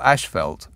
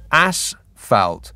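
First: The first syllable has an 'sh' sound. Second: The first syllable has a plain 's' sound. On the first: The speaker calls it wrong. "as I would call it" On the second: The speaker calls it right. "It's asphalt. But that just doesn't sound very nice"

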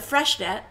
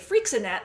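First: The name is said the newly learned way. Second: The name sounds like a hairspray brand. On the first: The speaker calls it right. "I only recently learned how to pronounce that" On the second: The speaker calls it wrong. "I used to say Freixenet, like it was some sort of hairspray"

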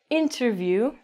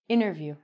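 First: The T after the N is clearly pronounced. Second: The T after the N is dropped. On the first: The speaker calls it wrong. "So we don't say interview" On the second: The speaker calls it right. "We say interview"

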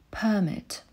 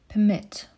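First: The stress is on the first syllable. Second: The stress is on the second syllable. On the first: It is used as a noun. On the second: It is used as a verb. "Pozwolić na"

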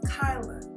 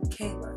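First: The first syllable rhymes with 'eye'. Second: The first syllable rhymes with 'day'. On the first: The speaker calls it right. "K-A-I is Kai, L-A is La, Kyla" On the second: The speaker calls it wrong. "not Kayla"

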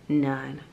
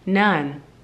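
First: It is said very softly, almost under the breath. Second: It is said a little louder, more audibly. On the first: The speaker is nervous and reluctant to share. "very softly under her breath" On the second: The speaker is complying with a request to speak up. "a little bit louder"

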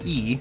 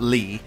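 First: The name starts with a plain vowel sound. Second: The name starts with an L sound. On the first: The speaker calls it right. "you notice I said E" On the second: The speaker calls it wrong. "not Lee"

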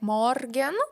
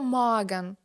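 First: The middle r is pronounced as a consonant. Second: The middle r becomes a vowel sound. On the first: The speaker calls it wrong. "ми «р» всередині ці слова можемо читати як «морген»" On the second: The speaker calls it right. "другий варіант значно кращий, це вже так по-німецьки"

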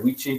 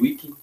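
First: The word begins with a V sound. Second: The word begins with a W sound. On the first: "depending on your Latin pronunciation" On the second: "they say that the V's is W"

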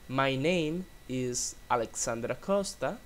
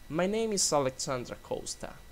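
First: The words are said separately, without linking. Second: The words are linked smoothly together.

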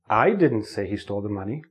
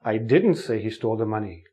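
First: The stress falls on the word 'I'. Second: The stress falls on the word 'didn't'. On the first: Someone else said it, not the speaker. "If I put the stress on the first word, I, it changes the meaning of the sentence" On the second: The speaker denies ever saying it. "You think I said it, but I didn't say it"

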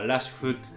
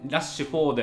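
First: The name ends with a clipped 'futs' sound. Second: The name ends with a full 'ford' sound. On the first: The speaker calls it right. "現地ではラッシュフッツ" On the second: The speaker calls it wrong. "フォードという発音あんまないんだよ"

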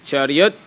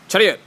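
First: It is said slowly. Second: It is said fast.

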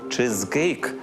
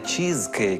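First: The first vowel is a lax 'ih' sound. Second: The first vowel is a tense 'ee' sound. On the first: The speaker calls it right. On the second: The speaker calls it wrong. "а не «чізкейк»"

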